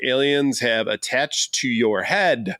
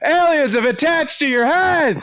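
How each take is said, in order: First: It is read in a flat, plain way. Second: It is read loudly and excitedly.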